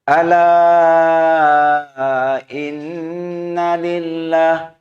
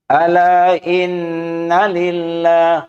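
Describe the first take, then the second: First: The long vowel is held for four counts. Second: The long vowel is held briefly, two counts. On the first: "Tapi kalau empat boleh juga" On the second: "pendek kan?"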